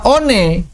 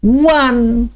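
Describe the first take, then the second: First: It is read letter by letter, two syllables. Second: It is said as one syllable, like wan. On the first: The speaker calls it wrong. "Menurut orang Indonesia, ini dibaca one" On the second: The speaker calls it right. "demikianlah orang-orang Inggris membacanya"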